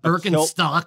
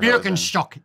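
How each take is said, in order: First: The name is said with an American pronunciation. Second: The name is said with a German pronunciation. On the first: The speaker calls it wrong. "It's not Birkenstock like you freaking hippies" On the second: The speaker calls it right. "Birkenstock is how you say it in Germany"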